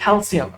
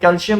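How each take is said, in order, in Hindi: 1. बीच का व्यंजन 's' ध्वनि है। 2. बीच का व्यंजन 'sh' ध्वनि है। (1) "सीन से" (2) "कैल्शियम शीन से नहीं है"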